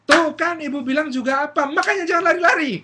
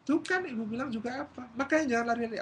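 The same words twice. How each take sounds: First: Loud, high shrieked telling-off; hammed-up angry mom yell; scolding mother. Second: High-pitched scolding at moderate volume; restrained mock scolding; nagging mother. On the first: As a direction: scold the fallen child at full volume. Mother scolding fallen child. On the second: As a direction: tell the child off, I-told-you-so. Mother scolding, repeated less loudly.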